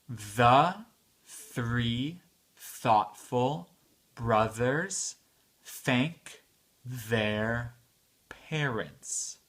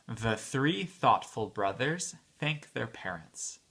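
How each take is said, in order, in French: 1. La phrase est prononcée à un rythme lent. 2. La phrase est prononcée à un rythme rapide.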